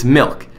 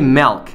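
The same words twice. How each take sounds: First: The vowel sounds like 'ih', as in milk. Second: The vowel sounds like 'eh', as in melk. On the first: The speaker calls it right. "because it's milk" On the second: The speaker calls it wrong. "There's no E in milk. If you say milk"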